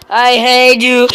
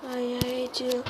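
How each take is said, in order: First: Loud, drawn-out hate; mock-hateful yell; exasperated shout. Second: Chanted, soft, drawn-out resentment; chanted, let it sink to a soft grumble; chanted, quietly cursing the game; muted hate chant. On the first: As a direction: explode at the game. Frustrated, bursts out. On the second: Pretend. Frustrated, repeats it softly.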